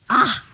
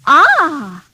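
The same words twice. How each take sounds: First: It sounds disgusted. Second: It sounds pleased.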